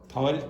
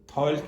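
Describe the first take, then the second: No difference in how they are said.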